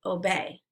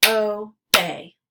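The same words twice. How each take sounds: First: Said in the usual way. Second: "Obey" as two separate beats, O – bey; syllables split apart. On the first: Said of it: "blend it together". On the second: Shown as a demonstration. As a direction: say "Obey" syllable by syllable, pausing between. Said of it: "give you the parts of the syllable".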